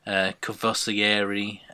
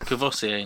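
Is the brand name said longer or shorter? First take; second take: longer; shorter. First: The name is said with extra syllables added. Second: The name is said without the extra syllables. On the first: The speaker calls it wrong. "He's saying Kvossieri" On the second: The speaker calls it right. "it's Kvossier, no?"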